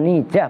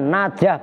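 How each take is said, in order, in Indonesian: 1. Suku kata pertama memiliki vokal i depan. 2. Suku kata pertama memiliki vokal a terbuka. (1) "bukan nijah" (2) "dengan dibaca fathah nunnya najah"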